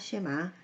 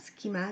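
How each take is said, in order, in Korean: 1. 이 단어는 'sh' 소리로 시작합니다. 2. 이 단어는 'sk' 소리로 시작합니다. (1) "쉐마 라고 발음하기도 합니다" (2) "스키마 라고도 하고"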